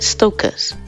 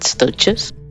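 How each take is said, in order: First: The middle consonant is a K sound. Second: The middle consonant is not a K sound. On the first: "the C H is usually pronounced like a K, so it sounds more like stokas" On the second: "some people pronounce it stoechas"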